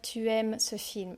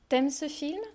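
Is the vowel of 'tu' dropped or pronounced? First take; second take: pronounced; dropped. First: The vowel of tu is fully pronounced. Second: The vowel of tu is dropped. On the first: "je ne vais pas dire" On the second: "Je vais dire ... Donc je ne prononce pas le U"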